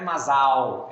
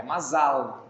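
First: "mazal" with the final L turned to W, like mazaw; wrong pronunciation. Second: "mazal" ending in a clear L; correct pronunciation. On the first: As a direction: say "mazal" the Brazilian way, ending in a W sound. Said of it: "mazal é com L mudo". ("mazal" errado, com L final virando U) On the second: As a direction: say "mazal" the Hebrew way, with a crisp final L. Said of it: "A pronúncia correta". ("mazal" certo, com L final pronunciado) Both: Shown as a demonstration.

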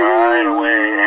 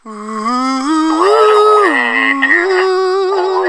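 First: Said in the usual way. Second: Long, high, drawn-out wail; mock crying wail. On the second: Dad recalls crying at a movie song, high mock wail. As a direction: stretch it into a high mock sob. I started to cry.

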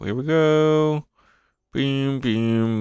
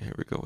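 First: Higher, slow drawn-out "Here we go"; playful higher "Here we go"; sing-song announcer. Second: Said in the usual way. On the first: Shown as a demonstration. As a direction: stretch "go" like a hype call.

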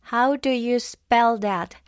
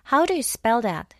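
First: Slow "How do you spell that", each word stressed; emphatic teaching stress. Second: Said in the usual way. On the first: Shown as a demonstration. Teacher models "How do you spell that" for learners, slow and emphatic. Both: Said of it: "강세를 좀 더 세게".

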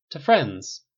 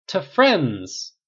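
First: Raised, loud toast. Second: Louder, higher echoing toast; bigger toast. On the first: Steve toasting his friends, loud. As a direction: lift the glass and call it out. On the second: The group echoing Steve's toast, louder and higher. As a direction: everyone shouts it back, fuller. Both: A narrator's reading.

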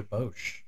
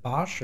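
First: "Bosch" with a long o, like "boash"; second pronunciation variant. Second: "Bosch" with an open ah, like "bosh"; first pronunciation variant. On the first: Offering co-host the alternative brand pronunciation, "Bosch" as "bohsh". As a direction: say "Bosch" with the vowel of "boat". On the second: Asking co-host which brand pronunciation is right, "Bosch" as "bahsh". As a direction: say "Bosch" to rhyme with "gosh". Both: Shown as a demonstration. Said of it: "Is it Bosch or Bosch?".

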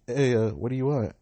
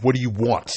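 First: Said in the usual way. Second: Loud, curt demand from a stranger; loud flat challenge. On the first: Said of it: "in class, they'll be like". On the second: Retold or imitated. Kids in Naruto mode confronting the newcomer, loud and curt. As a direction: bark the question at the intruder. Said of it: "they say it like that".

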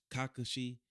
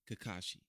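First: Kakashi as KAH-kuh-shee, first syllable stressed; smooth Japanese-style pronunciation. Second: Said in the usual way. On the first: Shown as a demonstration. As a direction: glide through Kakashi from an opening KAH. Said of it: "still just sounds smooth". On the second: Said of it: "we say Kakashi in Naruto".

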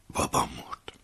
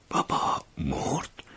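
First: Stunned whisper. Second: Slow hushed question rising on مرد; drawn-out بابا مرد? in shock; stunned disbelief. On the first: Narrator stunned by death. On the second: Narrator unable to believe his father died, slow disbelieving question. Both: A narrator's reading.

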